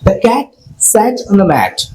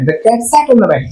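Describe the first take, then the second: First: The sentence is said slowly. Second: The sentence is said quickly. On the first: "slow টু fast" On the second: "slow টু fast"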